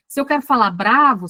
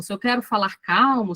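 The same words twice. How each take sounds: First: Mild demonstration of an angry tone; angry demo. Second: Demonstration of a calm, eased-off tone; calm demo. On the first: Teacher showing she can control her voice, mildly angry demo. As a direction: punch "bravo" with mock anger. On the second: Teacher showing she can control her voice, calm demo. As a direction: ease back and settle on "calmo". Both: Shown as a demonstration. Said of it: "eu controlo um pouco o tom".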